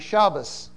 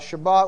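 First: The word ends with an S sound. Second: The word ends with a T sound.

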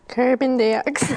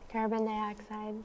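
First: It is said loudly. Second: It is said quietly.

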